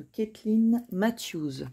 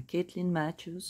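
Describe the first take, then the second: First: Name said in a French speaker's English accent. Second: Mock English accent on Caitlin Matthews; joking English accent. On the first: Shown as a demonstration. Tarot host showing viewers her deck, English accent. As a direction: attempt the English pronunciation of Caitlin Matthews. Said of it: "mon super accent anglais". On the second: Host joking to viewers about her English accent, mock English. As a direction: playfully put on English for the name, ending in a laugh. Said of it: "Non, je rigole".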